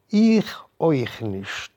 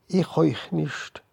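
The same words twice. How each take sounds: First: Slow, leaning on Ich; mother's slower Ich euch nicht; mother saying. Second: Higher, slow, stress on Ich; woman's slow Ich euch nicht; woman saying. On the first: Mother echoes, slow and firm. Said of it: "hat die Mama sich angerufen". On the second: The woman echoes the rabbi, higher and slow. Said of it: "hat die Idene noch gesagt". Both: A narrator's reading.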